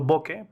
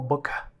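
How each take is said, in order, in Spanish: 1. La palabra se dice de forma simple, sin aire añadido. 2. La palabra se dice con un sonido aspirado añadido. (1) "lo estoy pronunciando bokeh" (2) "realmente es como boca, es con, con el aliento"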